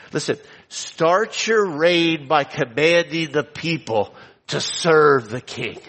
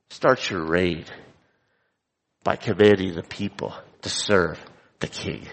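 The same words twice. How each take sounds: First: Slow, firm stress on "your" and "serve"; commanding tone. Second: Disapproving echo. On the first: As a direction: give it like a royal order, slowly. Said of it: "Hear the contrast?". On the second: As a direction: lower and quieter, stress on "Start" and "commanding". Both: Shown as a demonstration.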